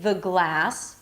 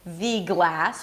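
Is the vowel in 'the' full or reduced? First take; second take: reduced; full. First: The vowel in 'the' is a reduced schwa. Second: The vowel in 'the' is full and clear. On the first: The speaker calls it right. "we say the glass. So the vowel there is a schwa sound" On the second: The speaker calls it wrong. "we don't say"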